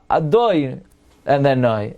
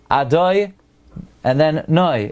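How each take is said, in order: First: The stress is on the second-to-last syllable. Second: The stress is on the last syllable. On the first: The speaker calls it wrong. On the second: The speaker calls it right. "You have to emphasize the uh, the last syllable"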